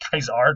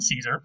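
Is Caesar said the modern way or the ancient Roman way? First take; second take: Roman; modern. First: Caesar is said in the ancient Roman way. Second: Caesar is said in the modern way. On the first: This is how the Romans said it. The speaker calls it right. "they pronounced it Caesar" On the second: This is not how the Romans said it. The speaker calls it wrong. "not Caesar"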